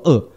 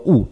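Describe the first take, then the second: First: It is said with the noun pronunciation. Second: It is said with the verb pronunciation. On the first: The word means evil as a thing. "恶这个字如果当名词用，读作恶" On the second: The word means to hate or loathe. "当动词用读作恶"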